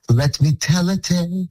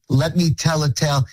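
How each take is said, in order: First: The t in 'let' is crisply pronounced. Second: The t in 'let' is softened or dropped. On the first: The speaker calls it right. "The lyric goes exactly like this" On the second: The speaker calls it wrong.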